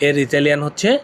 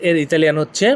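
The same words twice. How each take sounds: The two takes are said the same way.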